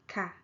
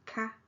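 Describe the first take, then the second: First: KA gliding down in pitch; falling tone. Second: KA held high in pitch. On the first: Teacher testing listeners' ears, falling tone. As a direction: drop the pitch through KA. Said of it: "okay, falling tone". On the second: Teacher testing listeners' ears, high tone. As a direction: keep KA up, no fall. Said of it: "high tone". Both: Shown as a demonstration.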